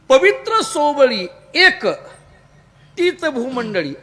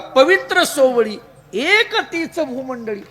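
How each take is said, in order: First: The pause comes right after 'ek'. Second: The pause comes right before 'ek'.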